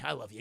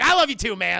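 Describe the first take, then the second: First: Low, soft acted declaration; understated imitated affection; calm affection. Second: Hammed-up loud affection; exuberant reply. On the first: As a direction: say it quietly to a friend, voice dropped. Calm take before shouted answer. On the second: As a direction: shout it back to your buddy. Shouted answer to friend.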